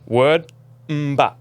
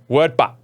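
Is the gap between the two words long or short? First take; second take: long; short. First: There is a long gap between the two words. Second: There is a short gap between the two words. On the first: The speaker calls it wrong. "That's too slow" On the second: The speaker calls it right. "It needs to be"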